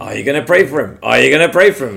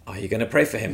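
First: Louder, pressing the question home; insistent repeated prompt. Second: Soft, insistent inner voice asking; quiet inner nudge. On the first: Spirit urging the storyteller to pray, insistently louder. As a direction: push harder with each repeat. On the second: Spirit nudging the storyteller to pray, softly. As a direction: nudge him gently with the question. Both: Retold or imitated. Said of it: "I can hear the Spirit saying to me".

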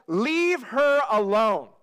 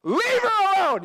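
First: Slow, measured command; unhurried, authoritative rebuke; firm command. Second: Loud, high-pitched barked order; over-the-top commanding shout. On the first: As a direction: deliver it as a firm order, word by word. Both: Acted. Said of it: "this is a command".

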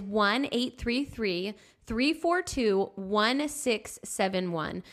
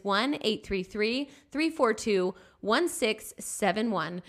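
First: Slow, spaced digits; slow dictation of digits; slow phone number. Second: Slow, spaced digits again; slow repeated phone number; number repeated slowly. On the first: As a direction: read the number clearly. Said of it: "The number to call is". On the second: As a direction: repeat it clearly. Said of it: "Again, the number is". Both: Shown as a demonstration.

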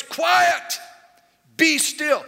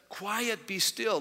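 First: High, loud order to the waves; commanding shout. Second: Said in the usual way. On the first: Acted. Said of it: "he commands them as if he's commanding a person". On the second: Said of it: "this text here, he says".

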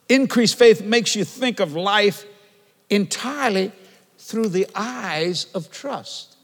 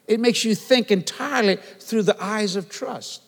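First: Faith stressed, loud and drawn out; slow emphatic preaching. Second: Said in the usual way. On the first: Shown as a demonstration. Preacher driving his point home to the church. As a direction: hammer each word slowly. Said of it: "Let me say it again". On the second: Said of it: "That's what it does".

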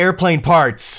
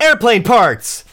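First: High, loud, drawn-out exclamation; excited outburst. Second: Very high, very loud, slow cry; emphatic shout. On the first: Fads leans in to the others, an excited outburst. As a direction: blurt it out slowly and high. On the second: Fads stands up to announce it, an emphatic shout. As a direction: belt it out, stretching both words. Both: Acted.

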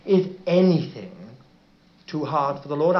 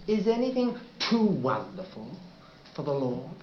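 First: "is" leaned on, flat familiar reading of "is anything too hard for the Lord"; "is" stressed, falling, the usual phrasing; wrong emphasis. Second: "anything" lifted and rising, softer voice on "Is anything too wonderful for the Lord?"; stress on anything. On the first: Pastor showing the congregation the common reading, plain emphasis on "is". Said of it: "is not". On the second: Pastor showing the congregation Rotherham's emphasis, stress rising on "anything". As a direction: lean into "anything", let it rise, then drop away. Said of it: "That was the emphasis".

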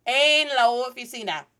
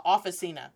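First: "oficina" loud with a long round o and clear ee; correct Spanish pronunciation. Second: "officina" with English short vowels; anglicized mispronunciation. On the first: Teacher correcting officina for the class, full Spanish vowels. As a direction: say "oficina" as oh-fee-SEE-nah, firmly. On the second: Teacher showing how not to say oficina, anglicized. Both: Shown as a demonstration. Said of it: "not the officina".

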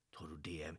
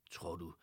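First: Hushed whispered question. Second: Said in the usual way. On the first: A narrator's reading. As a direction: whisper it as if afraid to hope. Hushed repeat, suspecting Paul.

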